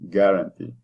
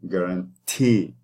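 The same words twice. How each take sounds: First: The last syllable is unstressed with a short vowel. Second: The last syllable is stressed with a long vowel. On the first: The speaker calls it wrong. "if you were to say it this way, that means the last syllable doesn't have the stress anymore" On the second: The speaker calls it right. "the last syllable has the stress. Guarantee. I'm exaggerating it"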